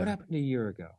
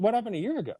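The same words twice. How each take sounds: First: Grave consequence probe; consequence question voice. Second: Higher, breezy connecting question; casual upbeat curiosity; light curious. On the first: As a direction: ask it heavy and pointed. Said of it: "that's your consequence question voice". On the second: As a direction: ask like a mate who's intrigued. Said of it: "connecting situation question voice". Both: Shown as a demonstration.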